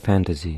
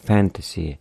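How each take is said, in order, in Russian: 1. Средний согласный — звенящий звук Z. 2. Средний согласный — простой звук S.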